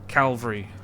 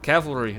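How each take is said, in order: First: The word starts with cal, l before v. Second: The word starts with cav, before the l. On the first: The speaker calls it wrong. "not cal calvary" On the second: The speaker calls it right. "I understand that it is cavalry"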